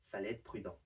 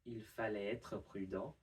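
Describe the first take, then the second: First: The pronoun is dropped, making it quicker. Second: The sentence starts with the pronoun il. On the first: "Much quicker" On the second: "instead of"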